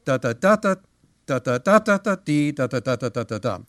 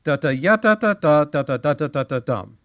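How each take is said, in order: First: Da da rhythm punching the downbeat, then quick and falling; stressed downbeat. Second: Sung, even mechanical da da, every beat alike; sung, tap it out like a metronome; sung, strict piano rhythm. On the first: Teacher marking the strong downbeat. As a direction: lean on the first beat. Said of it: "that's the strong one". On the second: Sung, teacher showing the wrong piano rhythm. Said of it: "play that rhythm". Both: Shown as a demonstration.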